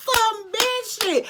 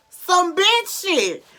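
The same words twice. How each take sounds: First: Very high, slow squeal of disbelief; squealing outrage; shrieked repeat. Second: High, loud, slow punchline; drawn-out exasperated emphasis; emphatic repeat. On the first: Repeating punchline, even higher. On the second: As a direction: hit it hard and slow. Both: Real, not acted.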